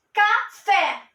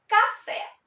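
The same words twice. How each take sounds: First: "Café" in two separate beats, ending on a firm "fé"; teacherly, deliberate "Ca, fé"; split into syllables. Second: Said in the usual way. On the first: Shown as a demonstration. Repeats word split to show stress.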